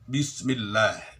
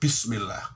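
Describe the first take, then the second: First: The consonants are voiced without escaping breath. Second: Breath escapes audibly with the consonants. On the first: The speaker calls it right. "Harusnya Bismillah, Bismillah, tidak keluar nafas" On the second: The speaker calls it wrong. "keluar nafas"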